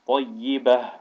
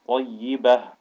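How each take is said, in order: Both takes have the same delivery.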